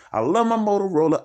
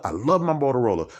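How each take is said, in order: First: High, loud gushing declaration; gushing love. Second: Said in the usual way. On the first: Acted. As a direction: squeal it like a true fan. Repeated line, emphatic take.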